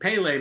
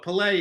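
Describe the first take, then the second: First: The stress is on the first syllable. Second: The stress is on the second syllable. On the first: The speaker calls it wrong. "I've called him Pele my whole life" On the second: The speaker calls it right. "putting the accent on the on the on the lay part"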